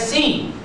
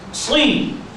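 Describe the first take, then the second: First: The s is plain, with a light, thin sound. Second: The s is emphatic, with a heavy, dark sound. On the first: The speaker calls it wrong. "Jangan si" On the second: The speaker calls it right. "Kita baca sad"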